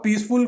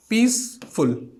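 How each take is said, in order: First: Said in the usual way. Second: peaceful slowly in two beats, पीस, pause, फुल; split into syllables. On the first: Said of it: "दो syllable आ गए". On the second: Shown as a demonstration. Teacher showing syllable count, peaceful slowly split as piece-full. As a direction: break peaceful after पीस. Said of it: "हम लोग इस तरीके से".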